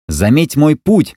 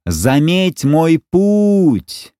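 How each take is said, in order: First: High slow call upward; shouting. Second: High, very slow drawn-out cry; shouting. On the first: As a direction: call it up to the sky. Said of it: "закричал Маугли". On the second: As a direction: stretch the cry out as he is thrown. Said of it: "Мальчик выкрикнул последние слова". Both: Acted.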